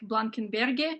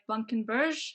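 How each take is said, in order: First: The name is said the local Russian way. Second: The name is said a different, non-Russian way. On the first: This is how the band says it at home. "Here in Russia, we pronounce it like" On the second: This is how others have said it. "We heard something like"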